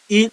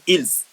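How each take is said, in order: First: The final s sound is silent. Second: The final s sound is pronounced. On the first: "but the s remains silent" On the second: "some teacher also pronounce the s on il to differentiate"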